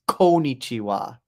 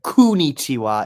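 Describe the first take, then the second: First: The first syllable has an 'oh' vowel. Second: The first syllable has an 'oo' vowel. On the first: The speaker calls it right. "It's Konichiwa. Right? Like coexist or co-op" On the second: The speaker calls it wrong. "He said it pretty wrong. He said Kunichiwa"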